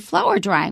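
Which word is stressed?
flower. The stress falls on the word flower. The speaker calls it right. "we say"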